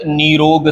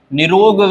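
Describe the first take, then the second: First: निरोग with long nee, nee-rog; correct pronunciation. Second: निरोग with short ni, ni-rog; wrong pronunciation. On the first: Teacher correcting it, निरोग said with long nee. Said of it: "सही है". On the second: Teacher showing the mistake, निरोग said with short ni. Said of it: "गलत है". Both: Shown as a demonstration.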